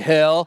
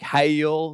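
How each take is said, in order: First: It is said as one short syllable. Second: It is drawn out into two syllables.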